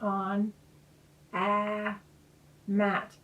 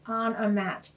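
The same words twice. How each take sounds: First: Each word is said separately with pauses. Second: The words flow together as one phrase. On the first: The speaker calls it wrong. "instead of saying" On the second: The speaker calls it right. "I want them to get a phrase"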